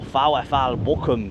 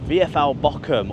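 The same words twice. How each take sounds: First: The name is said with German-style pronunciation. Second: The name is said with English-style pronunciation.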